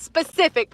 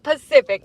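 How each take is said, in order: First: The word begins with an s sound. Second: The word begins without an s sound. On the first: The speaker calls it right. "I know that it's specific" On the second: The speaker calls it wrong. "not Pacific. That's an ocean"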